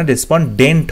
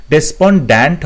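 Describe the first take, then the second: First: "ডেসপন্ডেন্ট" ending in "dent"; "ডেসপন্ডেন্ট" with a clear "e" in the last syllable; correct pronunciation shown. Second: "ডেসপন্ড্যান্ট" ending in an open "dant"; "ডেসপন্ড্যান্ট" as des-pon-DANT, the mistaken form; wrong pronunciation shown. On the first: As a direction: say "ডেসপন্ডেন্ট" as des-pon-DENT. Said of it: "হয়". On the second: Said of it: "হয় না". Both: Shown as a demonstration.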